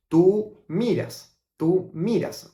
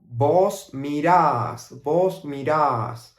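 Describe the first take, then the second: First: "Tú miras" stressed on "mi"; plain "tú miras", stressed on "mi"; standard tú form. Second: Slow "Vos mirás", stress on the final "rás"; Argentine vos form. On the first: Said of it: "we will normally say tú". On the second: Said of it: "with the pronoun vos". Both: Shown as a demonstration.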